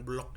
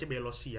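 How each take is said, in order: First: It is said in one syllable, blok. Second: It is said in three syllables, be-lo-si. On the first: "bukan blok ya. Blok juga boleh sih" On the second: "ini baca Belosi ya"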